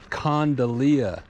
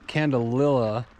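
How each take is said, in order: First: The name is said as condalia. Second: The name is said as candelilla. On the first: The speaker calls it right. "it's Condalia" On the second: The speaker calls it wrong. "So I pronounced it wrong. It's not Candelilla"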